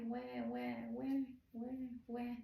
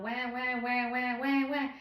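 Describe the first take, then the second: First: Soft, subdued mock "wah"; fading baby cry. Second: Repeated higher "wah", building louder; loud mock baby cry. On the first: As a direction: imitate baby's whines dying down. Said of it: "slowly start fading down". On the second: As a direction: imitate a baby's insistent screaming. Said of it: "the screams are still loud".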